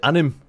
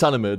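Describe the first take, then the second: First: The word is said with two syllables. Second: The word is said with three syllables. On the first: The speaker calls it wrong. "people pronounce it anim" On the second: The speaker calls it right. "it's anime, dude"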